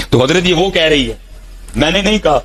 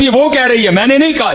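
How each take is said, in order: First: Said in the usual way. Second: Delighted higher repeat. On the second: Acted.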